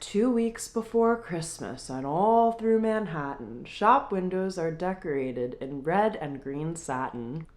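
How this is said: It is read in a Christmas storybook voice.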